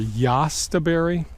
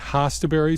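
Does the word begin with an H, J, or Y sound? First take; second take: Y; H. First: The word begins with a Y sound. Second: The word begins with an H sound. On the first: "or yastaberry" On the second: "I pronounce it hostaberry"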